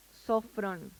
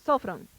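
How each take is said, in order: First: "sofrón" drawn out slowly; unhurried, stretched-out "sofrón"; slow first attempt. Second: "Sofrón" stressed on the first O, SO-fron; corrected "Sofrón", accent on the first syllable. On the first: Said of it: "Es, perdón, es so". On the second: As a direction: punch the SO in "Sofrón", let the end fall. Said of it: "el acento está en la O, la primera O". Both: Shown as a demonstration.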